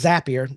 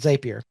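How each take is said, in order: First: The name rhymes with the word happier. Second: The name does not rhyme with happier. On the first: The speaker calls it right. "it is Zapier ... Zapier makes you happier" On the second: The speaker calls it wrong. "not Zapier"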